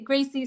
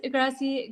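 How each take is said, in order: First: "Gracie" with a long a as in grace, GRAY-see; "Gracie" said carefully like grace; corrected name. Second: "Gracie" said with a short a as in cat, GRA-see; "Gracie" with the vowel of cat, a quick slip; first slip of name. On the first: Teacher correcting a viewer's name, careful and deliberate. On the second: Teacher greeting a viewer by name, quick slip of vowel. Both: Real, not acted.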